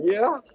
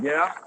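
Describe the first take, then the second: First: High, questioning little yeah; mock near-tears. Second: Said in the usual way. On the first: Nervous driver answering crew chief, mock near-tears. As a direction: imitate a nervous, almost tearful reply. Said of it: "I almost was crying". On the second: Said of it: "And I almost was crying".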